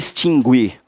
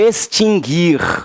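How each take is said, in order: First: The u after the g is pronounced. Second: The u after the g is silent. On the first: The speaker calls it wrong. "e não extinguir" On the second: The speaker calls it right. "É adquirir e extinguir"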